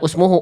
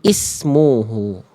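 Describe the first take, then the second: First: The word begins with a u vowel. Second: The word begins with an i vowel. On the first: The word is read as a verb. The speaker calls it wrong. "Jadi di sini bukan usmuhu" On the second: The word is read as a noun. The speaker calls it right. "ini kata benda jadi ismuhu gitu ya"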